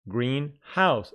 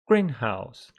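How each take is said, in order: First: The stress is on the second syllable. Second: The stress is on the first syllable. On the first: A house that is green in colour. "the stress here is on the second syllable" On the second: A building for growing plants. "The stress in compound nouns falls on the first syllable"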